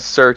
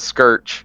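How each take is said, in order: First: The word begins with a plain s sound. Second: The word begins with an sk sound. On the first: This is the normal way to say it. The speaker calls it right. "instead of saying search" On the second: Someone else deliberately says it this way. The speaker calls it wrong. "he says skirch"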